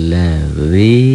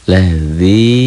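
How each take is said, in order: The two takes are said the same way.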